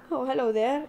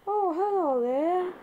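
First: Lightly voiced toy greeting in English; a hint of a cute talking bear; mock teddy voice. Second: High, slow put-on toy voice; imitating teddy. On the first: Retelling what the teddy says to chat, lightly voiced. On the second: Streamer copying the bear's line, high and slow. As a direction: stretch it out like a sweet toy bear.

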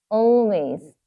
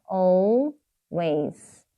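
First: Said in the usual way. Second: "Always" split slowly into Al, ways; syllable by syllable. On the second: Shown as a demonstration. Teacher showing learners the new word "Always", syllable by syllable. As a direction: draw out each half of "Always". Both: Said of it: "항상이라는 뜻이에요".

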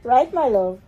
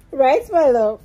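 First: Said in the usual way. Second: Louder, laughing through the question. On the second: Real, not acted. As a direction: burst out laughing mid-question. Laughing at the baby.

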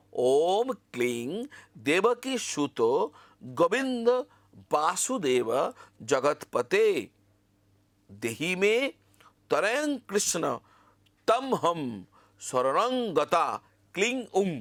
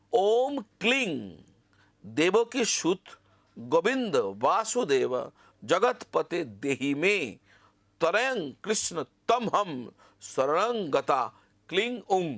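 First: Slow dictation, each word set apart; staccato. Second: Flowing chant, words joined smoothly; chanted mantra. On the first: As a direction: break the mantra into separate pieces. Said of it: "আমি কেটে কেটে বলার চেষ্টা করছি". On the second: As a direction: intone the mantra in one chanting stream. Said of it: "এই মন্ত্র আপনি জপ করতে থাকবেন". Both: Shown as a demonstration.

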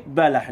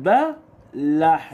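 First: Said in the usual way. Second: بلح very slow, ba, pause, lah; split syllables. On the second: Shown as a demonstration. Teacher building a word for the children, split syllables. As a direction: break بلح after the first syllable. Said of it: "هنا كلمة إيه يا أولاد؟".

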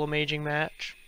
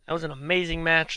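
First: Soft words broken by hiccups. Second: Said in the usual way. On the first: Real, not acted. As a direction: talk through the hiccups. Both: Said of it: "I got the hiccups".

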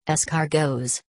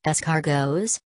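First: Said in the usual way. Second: ESCARGOTS with a rising end; "Escargots" repeated, tune lifting at the close; questioning repeat. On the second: A narrator's reading. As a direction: echo "Escargots" back as a question. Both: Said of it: "repeated Mister Brown".

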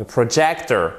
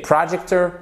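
First: "projector" stressed pro-JEC-tor; "projector" with a long, strong middle syllable; stress on second syllable. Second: "projector" stressed PRO-jec-tor; "projector" wrongly accented on the first syllable; misplaced stress. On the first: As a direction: slowly lean on JEC in "projector". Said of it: "la présence de l'accent tonique". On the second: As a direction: hit PRO in "projector", weaken the rest. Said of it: "la personne ne comprendra pas". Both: Shown as a demonstration.

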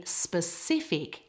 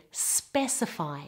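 First: "specific" with stress on the second syllable. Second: "specify" with stress on the first syllable. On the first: Teacher contrasts it with another word, second-syllable stress on "specific". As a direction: hit the middle syllable of "specific". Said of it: "it's on the second syllable". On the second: Teacher contrasts it with another word, first-syllable stress on "specify". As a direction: hit the opening syllable of "specify". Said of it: "stress the first syllable, which is the way". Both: Shown as a demonstration.

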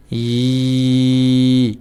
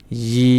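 First: ই held out long and steady; long drawn vowel. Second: Said in the usual way. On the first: Shown as a demonstration. Teacher demonstrating the long ই sound for students. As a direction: stretch the ই out evenly. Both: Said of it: "তারপরে জেরের সঙ্গে".

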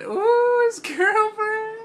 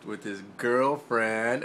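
First: High, loud, slow teasing squeal; teasing falsetto. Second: Said in the usual way. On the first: Pretend. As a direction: tease him in a high sing-song. Teasing a bandmate's girlfriend.

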